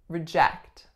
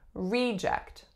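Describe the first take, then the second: First: The stress is on the second syllable. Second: The stress is on the first syllable. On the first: It is used as a verb. "The strongest syllable here is number two, telling us that it's a verb" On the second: It is used as a noun. "So the strongest syllable, of course, is the first"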